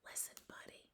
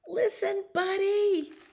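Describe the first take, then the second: First: It is whispered softly. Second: It is yelled loudly.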